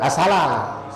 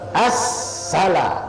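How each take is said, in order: First: The s sound is short and single. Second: The s sound is held long and doubled. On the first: The speaker calls it wrong. "bukan asalah. Salah kalau asalah" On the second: The speaker calls it right. "Mana sabdunya di atas sin?"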